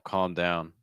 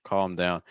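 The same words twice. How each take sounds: Both takes have the same delivery.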